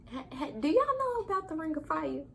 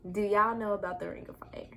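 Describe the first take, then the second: First: High, laughing question to viewers; giddy laugh-in question. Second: Said in the usual way. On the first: Acted. Vlogger teasing viewers about the Ring of Fire, giddy high voice. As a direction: ask it half-laughing, much higher.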